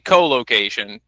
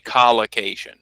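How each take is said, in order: First: It begins with a long 'oh', like co-worker. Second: It begins with a short 'o', like collar. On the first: "So I say co-location" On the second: "but some people say collocation"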